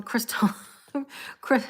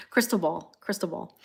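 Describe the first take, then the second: First: Broken off by laughter; real giggles. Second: Said in the usual way. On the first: Real, not acted. Tarot reader failing to name the card, laughing. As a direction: try to say it and crack up. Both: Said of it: "I don't know why I'm laughing when I say ball".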